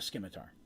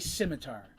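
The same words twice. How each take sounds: First: It starts with an s-k sound. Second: It starts with a plain s sound. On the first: "I pronounce the C in scimitar" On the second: "some people say"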